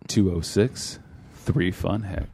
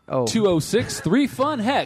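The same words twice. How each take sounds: First: It is said in a put-on sultry voice. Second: It is said in a plain, ordinary voice.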